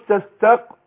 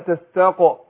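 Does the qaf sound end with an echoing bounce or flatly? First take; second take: flatly; echoing bounce. First: The qaf is stopped flat with no echoing bounce. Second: The qaf is released with a short echoing bounce. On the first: The speaker calls it wrong. "فما قلش تستق" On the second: The speaker calls it right. "القاف مقلقلة"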